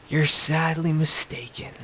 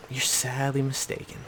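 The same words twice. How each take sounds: First: Higher and drawn out, every word leaned on; emphatic scornful verdict; pointed put-down. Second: Same words dropped softer, muttered aside; quiet scornful echo; softer repeat. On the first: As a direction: spell it out slowly to Rob. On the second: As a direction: let it sink in quietly. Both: Real, not acted. Scolding Rob, said twice.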